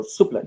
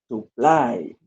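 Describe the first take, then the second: First: "supply" with the first syllable punched, the second short; stress on first syllable. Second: "Supply" with a long, strong second syllable; stress on second syllable. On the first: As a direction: hit the start of "supply", drop the end. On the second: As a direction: stretch and stress the end of "Supply". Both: Shown as a demonstration. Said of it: "What is supply here or in the second column".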